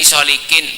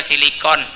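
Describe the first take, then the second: First: The vowels run o, i, i. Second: The vowels run i, i, o. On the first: This is the folk way of saying the word. "bahasanya kiai solikin" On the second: This is the proper medical way of saying the word. "bahasa dokter silikon"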